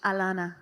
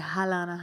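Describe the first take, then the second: First: It starts with a vowel, no H sound. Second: It starts with an audible H sound. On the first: The speaker calls it right. "my name is a silent H" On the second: The speaker calls it wrong. "people would say Halana"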